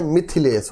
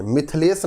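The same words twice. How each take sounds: First: मिथिलेश said fully as mi-thi-lesh with a clear middle i; every syllable of मिथिलेश spelt out; teacher models the right मिथिलेश; correct pronunciation. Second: मिथिलेश said as mithlesh, dropping the middle i; teacher shows the mistaken मिथिलेश; wrong pronunciation. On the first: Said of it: "मिथिलेश होता है". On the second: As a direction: squeeze मिथिलेश into two syllables, mith-lesh. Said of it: "नहीं होता है". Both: Shown as a demonstration.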